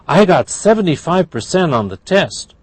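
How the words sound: It is said in a happy tone. "That's happy"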